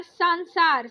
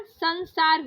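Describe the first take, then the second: First: संसार with a long aa first; wrong long first vowel. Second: संसार with a short first a; correct short first vowel. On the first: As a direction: say संसार as "saan-saar". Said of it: "संसार नहीं होता". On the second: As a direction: say संसार slowly as "sun-saar". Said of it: "संसार होता है". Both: Shown as a demonstration.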